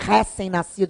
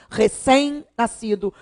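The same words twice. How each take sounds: First: The stress in 'recém' is on the first syllable. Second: The stress in 'recém' is on the last syllable. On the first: The speaker calls it wrong. "nem recém-nascido" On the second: The speaker calls it right. "É oxítona, não é paroxítona"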